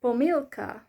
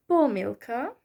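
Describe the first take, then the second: First: Pomilka with a loud, stressed MIL. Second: Pomilka with a loud, stressed PO; stress on first syllable. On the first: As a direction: hit the middle syllable of pomilka. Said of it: "the other one has the stress on the E". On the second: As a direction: hit the opening syllable of pomilka. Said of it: "the first one has the stress on the first syllable". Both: Shown as a demonstration.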